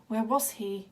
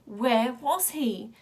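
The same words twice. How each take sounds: First: Said in the usual way. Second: Drawn-out, hollow repeat of the question; slow eerie echo. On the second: A narrator's reading. Wild Boy hearing the question echo in his head, slow and hollow. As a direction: stretch it out like a far-off echo.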